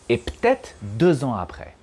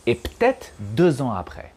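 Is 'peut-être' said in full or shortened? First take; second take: shortened; shortened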